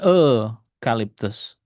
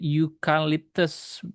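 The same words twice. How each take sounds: First: The word begins with a plain vowel sound. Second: The word begins with a 'yoo' sound. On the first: The speaker calls it wrong. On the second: The speaker calls it right. "Ingat pengucapannya you ini"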